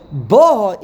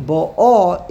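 First: Ba'ah stressed on its first syllable, "BA-ah". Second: Ba'ah stressed on its second syllable, the "ah"; stress on last syllable. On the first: Teacher quotes verse nine to the class, Ba'ah stressed on first syllable. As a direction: punch the opening syllable of Ba'ah. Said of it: "is on the first syllable". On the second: Teacher quotes the first verse to the class, Ba'ah stressed on last syllable. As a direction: hit the final syllable of Ba'ah, drawing it out. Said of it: "the emphasis is on the second syllable". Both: Shown as a demonstration.

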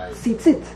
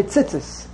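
First: Tzitzit as "tzee-tzeet", higher, long vowels. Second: Tzitzis as "tsits-iss", short first vowel; common mispronunciation. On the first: Shown as a demonstration. Teacher modelling the better form, long-vowelled Tzitzit with t. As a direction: end Tzitzit on a crisp t, not s. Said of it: "it makes it a lot better". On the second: Retold or imitated. Teacher imitating a Brooklyn yeshiva kid, short-vowelled tzitzis. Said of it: "It's not tzitzis".

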